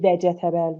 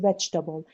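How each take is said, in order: First: The second vowel is pronounced, giving four syllables. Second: The second vowel is dropped, giving three syllables. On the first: The speaker calls it wrong. "نمیگی vegetable" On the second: The speaker calls it right. "میگی vegetable ... that vowel is silent"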